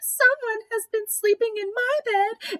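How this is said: It is said in a wee little voice.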